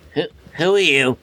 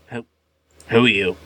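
First: The voice is lighter, not gruff. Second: The voice is gruff and rough.

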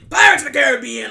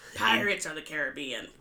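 First: The phrase is yelled loudly. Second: The phrase is spoken at normal volume. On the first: The speaker calls it wrong. "pirates don't yell nonstop" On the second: The speaker calls it right. "That's really excellent"

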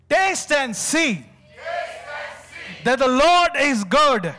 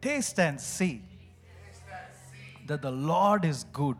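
First: It is spoken loudly, pushing out more air. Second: It is spoken at a normal, moderate volume. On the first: "This time we're going to do it more louder" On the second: "repeat after me"

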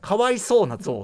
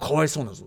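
First: It sounds light, with a drawn-out 'sou'. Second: It sounds detached, like stating a plain fact. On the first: It is a trivial, everyday kind of pity. "そうを伸ばしてください。" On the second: It is pitiable as an objective fact. "もう客観的事実としてかわいそうだって感じ"

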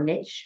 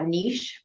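First: The word is said in an American way. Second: The word is said in a non-American way.

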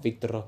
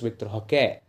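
First: The name is said with English-style sounds. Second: The name is said with Portuguese-style sounds. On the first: The speaker calls it wrong. "It's not Victor Roque" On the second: The speaker calls it right. "it's Victor Roque"

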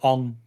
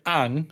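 First: The vowel sounds like the one in 'song'. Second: The vowel sounds like the one in 'cat'. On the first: This is the changed way the name was said. "they went Ong" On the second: This is the original way the name was said. "instead of saying Aang"

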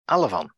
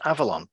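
First: The word is pronounced as Alavon. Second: The word is pronounced as Avalon. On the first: The speaker calls it wrong. "by instead saying Alavon" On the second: The speaker calls it right. "Michael York mispronounces Avalon"

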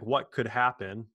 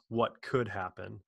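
First: The word could is not stressed. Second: The word could is stressed. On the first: The speaker worries about what might go wrong. The speaker calls it wrong. "instead of being like" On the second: The speaker is open to good possibilities. The speaker calls it right. "Emphasize the second could"

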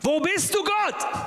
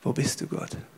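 First: It is shouted loudly. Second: It is said quietly and despairingly.

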